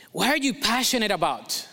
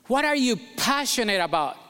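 No difference in how they are said.

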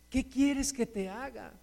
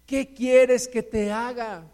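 First: Hushed, searching question; gentle asking. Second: Slow, deliberate challenge; emphatic asking. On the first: Jesus asking the listener what they want, soft asking. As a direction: let the question land softly. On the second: Jesus challenging a believer's small prayer, slow emphatic asking. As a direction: press each word of the question slowly. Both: Acted.

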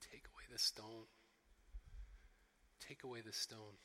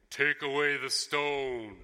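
First: Low, soft and broken; a little choked up. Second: Booming, slow command; authority and power. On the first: Deeply moved Jesus before the tomb, a little choked up. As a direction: hold it back, quietly choked with feeling. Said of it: "imagine him being a little bit choked up". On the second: Imagined almighty Jesus at the tomb, powerful and authoritative. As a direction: thunder it out, untouchable and commanding. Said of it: "Jesus being this voice of authority and power". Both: Acted.

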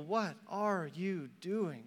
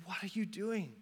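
First: Soft, drawn-out WHAT ARE YOU DOING, word by word; slow, weighted appeal. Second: Soft question to a wayward people; hushed appeal. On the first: God repeats the plea, word by word. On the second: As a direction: ask it softly, in one run. God pleads with his people. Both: Acted.

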